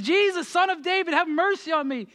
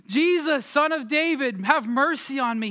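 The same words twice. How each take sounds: First: Imitated desperate shout, pitched very high; shouting louder. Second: Imitated plea called out high; crying out. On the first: Blind beggar told to shut up calls Jesus, shouting higher. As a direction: push the plea up high over the crowd. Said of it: "shouts louder and says". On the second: Blind beggar calling to Jesus as he passes, crying out. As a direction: call out like a beggar in a crowd, pitch raised. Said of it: "he just starts crying out".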